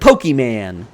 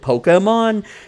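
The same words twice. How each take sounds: First: The word is pronounced in a distorted way. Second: The word is pronounced in the usual way. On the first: Adults say it this way on purpose to mock kids. The speaker calls it wrong. "they'd be like Pokemon" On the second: This is how everyone else says it. The speaker calls it right. "They hear the T V show pronounce it Pokemon"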